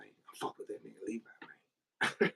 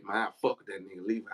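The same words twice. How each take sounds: First: Soft muttered echo. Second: Said in the usual way. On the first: Retold or imitated. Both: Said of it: "He used to always say".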